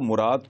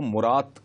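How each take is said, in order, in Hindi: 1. नाम का अंत d की ध्वनि से होता है। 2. नाम का अंत t की ध्वनि से होता है।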